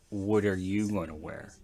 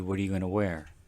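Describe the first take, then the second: First: The stress is on "you". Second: The stress is on "wear".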